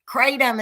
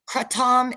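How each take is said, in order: First: The word is said the American way. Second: The word is said the European and Asian way. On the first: "kratom is how the Americans say it" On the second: "kratom is what they call it in Europe, in, in Asia"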